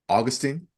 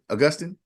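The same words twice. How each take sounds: First: The stress is not on the second syllable. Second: The stress is on the second syllable. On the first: The speaker calls it wrong. "Did I get it?" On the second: The speaker calls it right. "inflection is on the second syllable"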